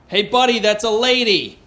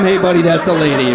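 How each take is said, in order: First: A weak, higher would-be tough call; mock threatening yell. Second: Said in the usual way. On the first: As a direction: try to sound threatening and fail, pitched up. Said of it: "I yell out the most threatening thing". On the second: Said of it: "a pretty big jump from".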